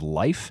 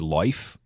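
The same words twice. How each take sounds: First: The I vowel is ordinary length. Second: The I vowel is drawn out long. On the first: "instead of life" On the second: "there's a long I sound. We heard him say life"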